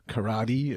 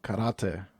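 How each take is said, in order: First: It is pronounced the local way. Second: It is pronounced the German way.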